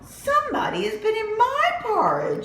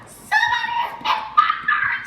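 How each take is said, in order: First: It is said in Mama Bear's voice. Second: It is said in Baby Bear's voice.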